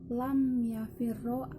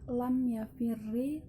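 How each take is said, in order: First: The verb ends with an a vowel. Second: The verb ends with an i vowel. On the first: "boleh juga difathahkan" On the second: "dengan kasrah"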